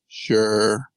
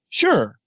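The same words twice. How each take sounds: First: It sounds curt and dismissive. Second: It sounds sincere and interested.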